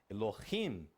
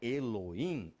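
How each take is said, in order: First: The h is a light throaty r-like sound. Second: The h is silent, not pronounced at all. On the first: The speaker calls it right. "é gutural, então sai da gutura. Tem então um som de R levemente" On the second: The speaker calls it wrong. "Não é mudo como... as pessoas falam Elohim. Não é Elohim"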